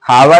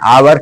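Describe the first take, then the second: First: The word begins with an audible h sound. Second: The word begins with a vowel, no h. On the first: The speaker calls it wrong. "हावर नहीं कहते हैं" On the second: The speaker calls it right. "आवर कहते हैं"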